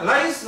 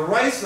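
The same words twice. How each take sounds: First: ライス begun with a plain L; ライス with L, not R; L sound. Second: ライス begun with an English R; ライス with R as in rice; R sound. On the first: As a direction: say ライス with tongue tip up for L. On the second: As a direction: say ライス with rounded, curled R. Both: Shown as a demonstration. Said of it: "これRかな、Lかな".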